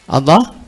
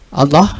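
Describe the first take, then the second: Both takes have the same delivery.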